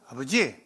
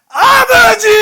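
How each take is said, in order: First: It is said calmly, without urgency. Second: It is cried out loudly and urgently.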